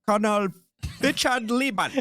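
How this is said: It is said in a put-on German accent.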